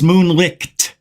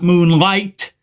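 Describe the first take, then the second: First: The name ends in a 'licked' sound. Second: The name ends in an 'ight' sound. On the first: The speaker calls it right. "It's moonlicked" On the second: The speaker calls it wrong. "not moonlight"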